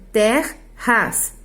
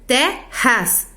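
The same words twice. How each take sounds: First: "terras" split as ter-ras, slow, R closing the first syllable; grammatical syllable split. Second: "terras" split as te-rras, open first syllable; poetic syllable split. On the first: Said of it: "separam-se dois R's e dois S's". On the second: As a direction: break "terras" into te. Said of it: "Não se separam dois R's". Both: Shown as a demonstration.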